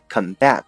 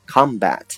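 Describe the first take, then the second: First: The stress is on the second syllable. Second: The stress is on the first syllable. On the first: It is the verb, to fight. "如果呢你读成combat，它就是动词啊" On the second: It is the noun, a fight. "此时呢重音在前面"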